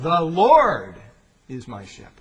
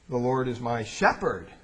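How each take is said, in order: First: The word Lord is stressed. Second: The word Lord is not stressed.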